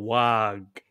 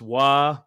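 First: The word ends with a stressed G sound. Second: The word ends on the vowel, without a G. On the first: The speaker calls it wrong. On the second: The speaker calls it right.

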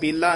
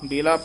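First: The word is said forcefully and heavily. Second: The word is said softly and lightly. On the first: The speaker calls it wrong. "ਬੇਲਾ ਨਹੀਂ ਕਹਿ ਦੇਣਾ" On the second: The speaker calls it right. "ਬੇਲਾ ਬੇਲਾ ਪੋਲਾ ਬੋਲਣਾ ਹੈ"

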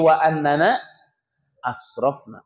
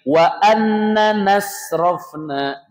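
First: The glottal stop is kept before the last word. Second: The glottal stop is dropped, words run together. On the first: The speaker calls it right. "Tapi ... Nggak boleh dibuang kalau hamzah ini" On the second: The speaker calls it wrong. "Bacanya bukan begini"

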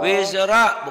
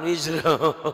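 First: The word ends with an open 'a' vowel. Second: The word ends with a rounded 'o' vowel. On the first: The speaker calls it right. "Wizra bukan wizro" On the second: The speaker calls it wrong. "bukan wizro"

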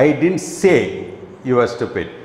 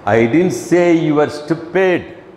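First: The stress is on the word say. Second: The stress is on the word stupid.

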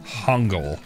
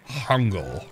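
First: The word begins with a soft H-like sound. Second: The same.

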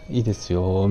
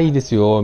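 First: It is said slowly with a hesitant sigh. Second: It is said lightly and readily. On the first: The person is quietly unhappy about it. "ああ、いいですよみたいな" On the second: Nothing is wrong and the person agrees. "何でもないときは、あ、いいですよ、みたいな感じだったのが"

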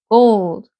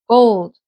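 The two takes are said the same way.

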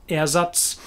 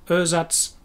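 No difference in how they are said.

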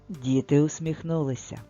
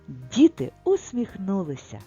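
First: It is said as a calm, level statement. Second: It is said as a joyful exclamation. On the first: Something is being told. "Тут щось розповідається" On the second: Joy about the event is expressed. "прочитаємо з радістю"

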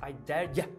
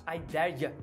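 The two takes are said the same way.

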